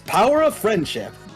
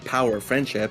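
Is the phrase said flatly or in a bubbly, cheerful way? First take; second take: bubbly; flat. First: It is said in a bubbly, cheerful way. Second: It is said in a flat, plain way. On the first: The speaker calls it right. "speaking with that many rainbows" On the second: The speaker calls it wrong. "You're not saying it right"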